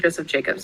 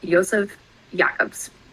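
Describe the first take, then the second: First: The name is said with English pronunciation. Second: The name is said with German-style pronunciation.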